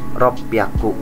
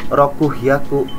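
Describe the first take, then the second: First: The parts merge into a doubled p sound. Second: Both parts are said in full, with an h. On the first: The speaker calls it right. "tapi ropyaku" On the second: The speaker calls it wrong. "Bukan rokuhyaku"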